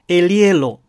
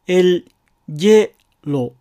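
First: The l links into a soft y glide. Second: The l is followed by a j sound. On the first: "エリエロという3 音節にしてエリエロと発音する場合" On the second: "エルジェロと発音する場合"

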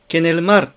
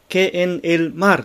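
First: The words run together without breaks. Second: Each word is said separately with breaks. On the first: "ケネルマルとなっています" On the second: "ケ、エン、エル、マルとは読んでないですね"

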